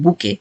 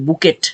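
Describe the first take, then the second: First: The word ends without any t sound. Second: The word ends with a sounded t. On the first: The speaker calls it right. "But এটা হচ্ছে বুকে" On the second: The speaker calls it wrong. "উচ্চারণ সবকিছু এরকম আছে যে বুকেট টাইপের এমন কিছু"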